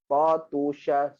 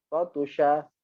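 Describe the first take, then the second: First: Slow, drawn-out demo reading; slowly. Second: Quick, fluent demo reading; fast. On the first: Teacher showing students, slow careful reading. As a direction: stretch each syllable out for the class. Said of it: "Pelan-pelan". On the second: Teacher showing students, brisk fluent reading. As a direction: run the word off smoothly. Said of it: "Dan lajukan dia". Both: Shown as a demonstration.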